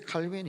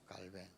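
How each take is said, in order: First: The name is said as Kalbin, English-style. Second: The name is said as Kkalbaeng, French-style. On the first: "영어식 발음으로 칼빈이라고 그러는데" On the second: "원래 프랑스 사람입니다. 깔뱅이라고 하죠"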